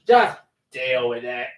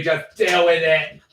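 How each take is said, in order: First: Slow, lightly put-on repeat; playful mocking take. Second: Said in the usual way. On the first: Shown as a demonstration. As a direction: echo yourself in a silly voice. Repeats it in altered voice.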